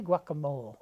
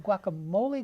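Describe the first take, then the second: First: "guacamole" said as gwok-uh-MOLE; guacamole with silent e. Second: "guacamole" said as gwok-uh-MOH-lee; guacamole ending in -ee. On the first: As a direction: end "guacamole" on "mole", no final ee. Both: Shown as a demonstration. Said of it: "What is the right pronunciation?".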